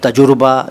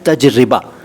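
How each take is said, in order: First: The middle is said as tajur-ba, with u vowel. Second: The word is said as taj-ri-ba, with i vowel. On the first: The speaker calls it wrong. "ये दोनों गलत हैं" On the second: The speaker calls it right. "सही शब्द है तजरिबा"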